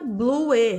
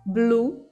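First: The final E is pronounced as an extra sound. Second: The word ends on the U with no E. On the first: The speaker calls it wrong. "Nunca blue. Não faça isso" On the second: The speaker calls it right. "É só U mesmo"

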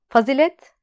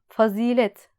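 First: The I vowel is short. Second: The I vowel is lengthened. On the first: The speaker calls it wrong. "Fazilet demiyoruz" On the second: The speaker calls it right. "Fazilet derken İ'yi uzatıyoruz"

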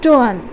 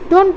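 First: The final consonant is dropped. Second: The final consonant is fully pronounced. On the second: This is the general English form.

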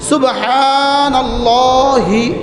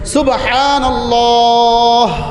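First: The word ends with a final vowel 'i'. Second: The word ends on a bare final 'h'. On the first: This is the form used when reading on. "শব্দ ছিল সুবহানাল্লাহি" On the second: This is the form used when stopping. "এখন ওয়াকফের সময় সাকিন"

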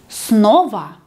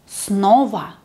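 Both takes have the same delivery.

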